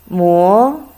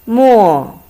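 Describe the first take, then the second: First: It is said with the second tone. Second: It is said with the fourth tone. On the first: It means to grind. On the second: It means ink.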